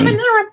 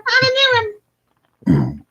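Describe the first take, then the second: First: Said in the usual way. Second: "I'm a new one" very high, slow and squeaky; slow squeaky demonic puppet announcing itself; Satan Elmo voice. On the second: Shown as a demonstration. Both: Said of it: "I sound like Satan Elmo".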